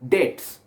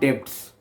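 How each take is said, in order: First: The b is silent in the word. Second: The b is sounded in the word. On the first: The speaker calls it right. "is pronounced as debts" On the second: The speaker calls it wrong. "not debts"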